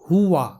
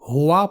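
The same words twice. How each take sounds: First: The first syllable is said with a u vowel. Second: The first syllable is said with an o vowel. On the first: The speaker calls it right. "सही तलफ़ुज़ है हुआ ... हो नहीं बल्कि हु पढ़ना है" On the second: The speaker calls it wrong. "मजहूल तरीके से हुआ पढ़ते हैं, जो कि गलत तलफ़ुज़ है"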